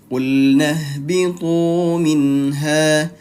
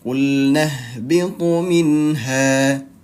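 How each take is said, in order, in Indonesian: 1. Vokal ditahan selama dua ketukan. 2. Vokal dipotong pendek menjadi satu ketukan. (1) "Itu panjang dua harokat atau dua ketukan" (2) "dengarkan kalau dibaca pendek seperti ini"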